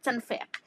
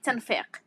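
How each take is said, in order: First: The word begins with a t sound. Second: The same.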